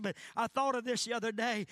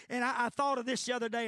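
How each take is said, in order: First: Said in the usual way. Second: Rushed, louder aside; words tumbling out quickly; hurried preacher's aside; talking fast. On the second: Real, not acted. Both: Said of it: "I know I'm talking fast".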